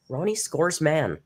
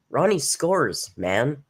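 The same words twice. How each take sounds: First: "Ronnie" stressed, "Scores Man" run on and falling; emphasize "Ronnie", let "Man" drop. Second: "Ronnie Scores" drawn out, "Man" set apart and rising; slow, questioning emphasis. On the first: Streamer trying out a viewer's name, stress on "Ronnie". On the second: Streamer puzzling over a viewer's name, "Man" rising after a break. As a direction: slowly separate "Man" with a rising end. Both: Shown as a demonstration. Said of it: "where to put the emphasis".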